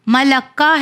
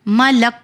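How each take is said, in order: First: "ملکہ" ending in ka; final vowel sounded. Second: "ملک" stopping dead on k; final vowel dropped. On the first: Teacher showing the written form, ending vowelled. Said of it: "کاف کی جو sign ہے اسے نہیں پڑھنا". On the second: Teacher showing the pausing form, silent ending. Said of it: "اسے نہیں پڑھنا ہے". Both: Shown as a demonstration.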